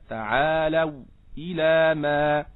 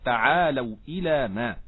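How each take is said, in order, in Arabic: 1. يوجد سكت قصير بعد الكلمة الأولى. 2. تتصل الكلمات دون أي سكت. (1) "والسكت في المفصول لخلف حمزة إن وصل هذا السكت" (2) "يجوز له أيضا ترك هذا السكت"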